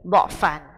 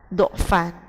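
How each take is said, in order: First: The first vowel is an open 'a'. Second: The first vowel is a rounded 'u'. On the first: "Huruf dha-nya dibaca dengan harokat fathah" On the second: "Ketika hurufnya dibaca dengan harokat dhammah"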